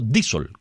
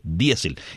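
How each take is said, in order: First: The stress falls on the first i sound. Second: The stress falls on the e sound. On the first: This is how Americans pronounce it. The speaker calls it wrong. "y no diésel, como dicen los americanos" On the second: This is the accepted Spanish pronunciation. The speaker calls it right. "para nosotros los que hablamos castellano sigue siendo diésel"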